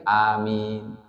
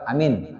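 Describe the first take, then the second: First: The vowels are drawn out long. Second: The vowels are clipped short. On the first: All the letters of the word are kept. The speaker calls it right. "Harus agak dipanjangin dikit" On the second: Letters of the word are lost. The speaker calls it wrong. "amin kurang"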